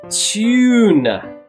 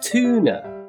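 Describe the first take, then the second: First: The first vowel sounds like yoo. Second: The first vowel sounds like oo. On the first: The speaker calls it right. "It needs to be a long vowel U sound" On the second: The speaker calls it wrong. "Some Americans will often say long vowel U as an oo sound"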